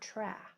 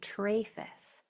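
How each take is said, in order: First: The first vowel is a short A sound. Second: The first vowel is a long A sound. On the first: The speaker calls it right. "I want tra. A is a short vowel" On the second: The speaker calls it wrong. "It has to make its long sound, and that would say trafes"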